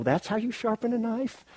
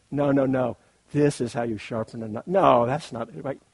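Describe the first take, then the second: First: High, incredulous sneer at another's method; hammed-up disbelief pitched high; mock scoffing. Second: Loud, hammed-up know-it-all correction; playful loud no-no-no correcting; mock insistent. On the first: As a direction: scoff at how they sharpen it. Mock rival knife sharpeners scoffing. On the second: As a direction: bluster that only your way is right. Mock rival sharpener insisting loudly.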